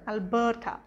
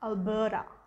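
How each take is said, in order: First: The last syllable is said with a clear t. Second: The last syllable is said with a soft d. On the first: The speaker calls it wrong. "That's how it's written" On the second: The speaker calls it right. "it's pronounced Alberta. So the ta becomes a da"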